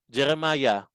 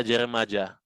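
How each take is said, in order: First: "Jeremiah" as jeh-reh-MAH-yah; usual Y pronunciation. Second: "Jeremiah" as jeh-reh-MAH-jah; wrong J pronunciation. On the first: Teacher names another prophet, "Jeremiah" ending in a clear -yah. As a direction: say "Jeremiah" with a y in the last syllable. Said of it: "Ba't kaya Jeremiah yung pangalan". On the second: Teacher shows an ugly-sounding alternative, "Jeremiah" said jeh-reh-MAH-jah. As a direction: say "Jeremiah" ending in a hard -jah. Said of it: "Ang pangit naman". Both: Shown as a demonstration.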